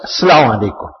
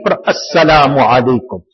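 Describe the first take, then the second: First: The greeting starts directly with 'salaam'. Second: The greeting starts with a clear 'as' syllable. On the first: The speaker calls it wrong. "Many of us, Salaam Alaikum" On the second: The speaker calls it right. "pronounce the Hamza, the Alif"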